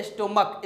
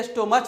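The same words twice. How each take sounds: First: स्टोमक with a final "k" sound; teacher's model स्टोमक, CH said as K; correct pronunciation. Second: स्टोमच ending in a "ch" sound; common mispronunciation. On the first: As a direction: end स्टोमक on a hard क. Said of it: "इसका जो pronunciation है". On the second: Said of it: "बहुत लोग इसे गलत पढ़ते हैं". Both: Shown as a demonstration.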